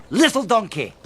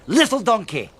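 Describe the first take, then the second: No difference in how they are said.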